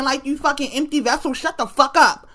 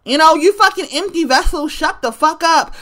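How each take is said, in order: First: Softer, dismissive put-down to an online stranger; scornful retort. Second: Emphatic repeat. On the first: Retold or imitated. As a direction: mutter it with contempt. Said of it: "And I'm like". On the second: Real, not acted. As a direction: drive the insult home with full weight. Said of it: "repeats the retort".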